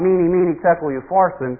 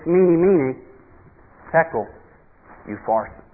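First: The words run together without pauses between them. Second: There are pauses between the separate words. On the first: It sounds like one single phrase. The speaker calls it wrong. "It's not" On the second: Each word carries its own separate thought. The speaker calls it right. "it would be appropriate to have a pause between those words"

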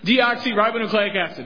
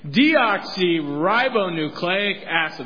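First: The phrase is said at a medium pace. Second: The phrase is said at a slow pace. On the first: "A little faster" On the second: "let's try it again"

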